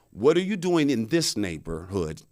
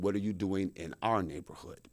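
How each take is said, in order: First: Deliberate question leaning on "this"; stress on THIS. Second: Lower, softer question leaning on "our"; stress on OUR. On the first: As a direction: lean on "this" before "neighborhood", questioning his presence. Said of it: "she just kept repeating those two sentences". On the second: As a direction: set "our" apart, quietly possessive. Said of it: "And then she said". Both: Retold or imitated.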